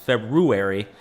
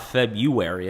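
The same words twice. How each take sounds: First: The first r sound is pronounced. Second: The first r sound is dropped. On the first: The speaker calls it right. "it's February" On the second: The speaker calls it wrong. "A lot of people say that wrong. It's not February"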